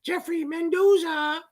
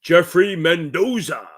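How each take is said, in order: First: Much higher, slow self-mocking announcer call. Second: Slow, louder drawn-out ring announcer call; WWE ring announcer. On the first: Mocking his own announcer voice, much higher and slow. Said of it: "but probably coming out goes". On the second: Announcing a viewer's name, wrestling announcer style. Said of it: "Gotta put that little w-, W W E stuff on it". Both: Shown as a demonstration.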